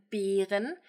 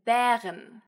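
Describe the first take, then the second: First: 'Beeren' with a long, closed ee-like E. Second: 'Bären' with a long, open eh sound. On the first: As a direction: say 'Beeren' with a tense, drawn-out e. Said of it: "clear difference between a long E". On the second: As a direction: say 'Bären' with a wide, drawn-out ä. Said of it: "and a long E, as in". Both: Shown as a demonstration.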